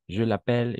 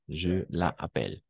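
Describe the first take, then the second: First: The pronoun's vowel is dropped and joined to the verb. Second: The pronoun keeps its own vowel before the verb. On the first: The speaker calls it right. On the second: The speaker calls it wrong.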